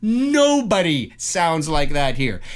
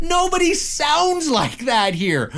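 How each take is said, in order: First: Slow, firm insistence near usual pitch; emphatic. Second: High, drawn-out protest; exasperated. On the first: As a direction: spell it out slowly, leaning on "Nobody". Repeats rebuttal in lower, firm voice. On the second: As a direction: stretch it out in exasperated disbelief. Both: Real, not acted.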